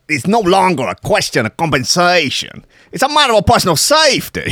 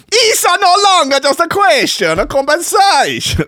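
First: Bad American Italian mobster accent; high, loud, hammed-up American Italian; Tony Soprano. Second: Very high, loud cartoon Italian accent; grotesque parody Italian. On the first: Podcaster reads a farm chief's quote as bad American Italian. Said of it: "the worst Tony Soprano impression". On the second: Podcaster redoing the quote as grotesque parody Italian. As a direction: go over the top with a shouted Italian caricature. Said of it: "the grotesque sort of parody Italian".

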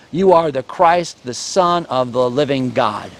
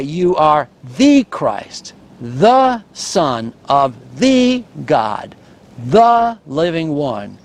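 First: Said in the usual way. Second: Slow, with every "the" leaned on; stress on THE. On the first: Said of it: "Peter would say". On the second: Shown as a demonstration. Preacher rendering the Greek emphasis for the congregation, slow and weighty. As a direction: lay weight on each "the", deliberately. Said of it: "you could translate it this way".

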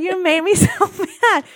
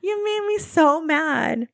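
First: Higher and louder, laughing through mock fury; half-laughing fake rage at her husband; laughing mock anger. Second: Higher, slow, drawn-out mock anger; slow mock fury. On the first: Retelling her outburst at Kyle. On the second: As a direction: stretch each word like a grudging grievance. Repeats the outburst, slower.

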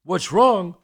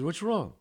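First: Loud, high retold outrage; outraged echo. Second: Higher, unalarmed waiter asking; waiter's question. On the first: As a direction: throw the question back, appalled. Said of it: "He's freaking out". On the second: Retold or imitated. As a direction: briefly play the inquiring waiter. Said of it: "The waiter comes over".

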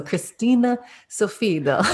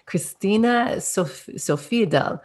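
First: "Sofiedal" tried the Norwegian way, as "Sofido"; a careful stab at "Christina Sofiedal" in Norwegian; attempted Norwegian name. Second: Said in the usual way. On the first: Shown as a demonstration. Host trying the guest's Norwegian name, a bit louder and higher. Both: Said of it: "really say her name in an authentic Norwegian accent".

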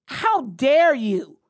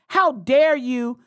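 First: Slow, falling How dare you; slower indignant rebuke. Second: Each word slow and loud, How leading; indignant, deliberate How dare you; slow indignant rebuke. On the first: Scolding Olbermann again. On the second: Scolding Olbermann. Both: Real, not acted.

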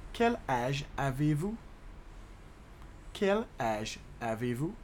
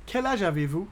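First: Word by word, "Quel", "âge", "avez-vous"; measured teaching pace with small gaps; slow demonstration. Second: Said in the usual way. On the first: Shown as a demonstration. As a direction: break the question up for learners. Teacher slows French question.

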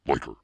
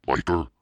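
First: LYCRA with a falling, settled end; settled statement. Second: LYCRA said louder, as a query; questioning. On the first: Reader deciding on a word, LYCRA stated with falling tune. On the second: Reader unsure of a word, LYCRA as a louder question. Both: Real, not acted. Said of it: "I think that word is lycra".

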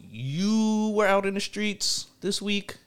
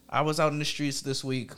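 First: Slow, high teasing. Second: Said in the usual way. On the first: Acted. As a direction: tease him about it. Teasing line, then restated plainly.

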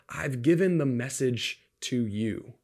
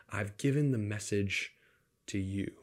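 First: Slow, deliberate emphasis on given; emphatic quote. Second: "given" stressed, line fading softer toward the end; a quiet, pointed echo; softer repeated quote. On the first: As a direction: lean on "given" and draw the line out. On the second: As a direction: repeat it, dropping down and inward. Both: Retold or imitated. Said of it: "the angel wants to emphasize this".

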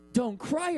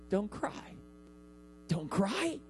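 First: Said in the usual way. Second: Soft and gentle, soothing a grieving mother; tender comfort. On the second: Pretend. Jesus to the grieving mother, tender and soft. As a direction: say it like you're calming her tears.

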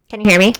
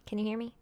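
First: Calling out much louder. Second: Said in the usual way. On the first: Real, not acted. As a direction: raise your voice to be heard. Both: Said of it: "Where'd you go?".

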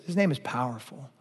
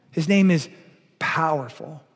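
First: Said in the usual way. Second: His name is, then a hush and a rising "powerful."; dramatic pause before powerful. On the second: Shown as a demonstration.

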